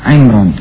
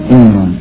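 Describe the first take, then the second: The two takes are said the same way.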